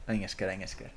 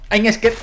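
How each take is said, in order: First: Soft, low little I'm scared; quiet mock fright. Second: Sudden high, loud cry of I'm scared; mock fright. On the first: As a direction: mutter it under your breath. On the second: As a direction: yelp it in hammed-up fear. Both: Playful scared repetitions.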